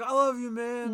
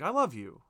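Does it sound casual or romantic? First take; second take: casual; romantic. First: It sounds like a casual drunk buddy. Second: It sounds tender and romantic.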